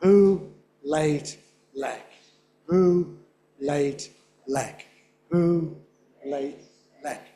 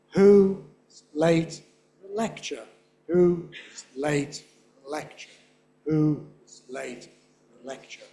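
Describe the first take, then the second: First: Evenly spaced "who", "late", "lek", one per beat; isolated beats, "who" strongest, "lek" dropping away; stressed syllables on beats. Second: "who", "late", "lec" on steady beats, rest tiny; slow beat-by-beat "who late lecture", fading away; weak syllables between beats. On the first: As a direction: chant "who, late, lek" like a slow metronome. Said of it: "say just the red syllables". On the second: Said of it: "you add the unstressed syllables". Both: Shown as a demonstration.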